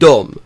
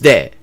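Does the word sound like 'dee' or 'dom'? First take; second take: dom; dee. First: The word is said like 'dom', rhyming with 'come'. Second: The word is read as spelled, like 'dee'. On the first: The speaker calls it right. "It is pronounced dom" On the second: The speaker calls it wrong. "It is not pronounced de"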